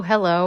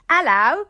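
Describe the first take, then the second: First: Said in the usual way. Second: High, put-on British greeting; mock British accent. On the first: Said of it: "not use my American accent". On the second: Shown as a demonstration. Guest drops her American accent to greet hosts, mock British accent. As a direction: try a hammed-up British hello. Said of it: "not use my American accent anymore".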